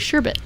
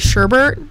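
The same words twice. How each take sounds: First: No R sound is in the second syllable. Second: An extra R sound is in the second syllable. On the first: The speaker calls it right. "but it's actually sherbet" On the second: The speaker calls it wrong. "a lot of people throw an R in there and they say sherbet"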